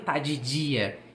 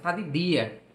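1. O d em dia soa suave, como dj. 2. O d em dia é um d forte. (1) "Lá ele não fala que tá de dia" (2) "ele faz aquele som igual que é falado no interior"

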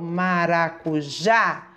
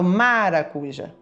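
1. A tônica fica na última sílaba. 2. A tônica fica antes da última sílaba. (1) "eu falo maracujá. É o já que é forte" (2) "Eu não falo maracujá"

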